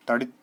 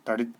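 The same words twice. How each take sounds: The two takes are said the same way.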